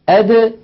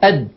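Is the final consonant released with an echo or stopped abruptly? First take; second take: echo; stopped. First: The final d is released with a slight echo. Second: The final d is stopped abruptly, tongue held. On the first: The speaker calls it right. "بالتباعد بين طرف اللسان وما يحازيه من مخرج الدال هكذا" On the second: The speaker calls it wrong. "ولا ينطقونها"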